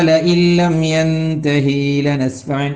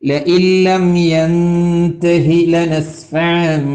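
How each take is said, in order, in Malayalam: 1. 'yantahi'-യിലെ അവസാന സ്വരം നീട്ടുന്നു. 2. 'yantahi'-യിലെ അവസാന സ്വരം ചെറുതായി തന്നെ നിൽക്കുന്നു. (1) "അത് നീളാൻ പാടില്ല" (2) "എന്നേ പറയാൻ പറ്റുള്ളൂ"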